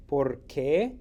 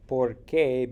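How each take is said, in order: First: "Por qué" with the stress on qué, rising as a question; "Por qué" asked, qué lifted; question word por qué. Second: "Por qué" as one word, loud, falling as a statement; "Por qué" said as a flat, firm because; answer porque. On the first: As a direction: say "Por qué" as two words, leaning on qué. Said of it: "when it's a question". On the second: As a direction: answer with "Por qué" run together, landing down on qué. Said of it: "because when it's a response". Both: Shown as a demonstration.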